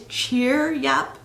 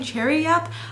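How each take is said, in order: First: The name begins with the sound of 'cheer'. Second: The name begins with the sound of 'cherry'. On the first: The speaker calls it right. "It is Cheeryup" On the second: The speaker calls it wrong. "I was for some reason was saying Cherryup"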